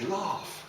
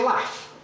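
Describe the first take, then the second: First: It has the southern long vowel. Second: It has the speaker's own northern short vowel.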